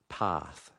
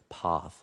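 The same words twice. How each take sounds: First: The vowel is a front 'a' sound. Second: The vowel is pulled back in the mouth. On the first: The speaker calls it right. "So it's a front sound. It's below ah" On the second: The speaker calls it wrong. "if you bring it too far in the middle of your mouth toward the back"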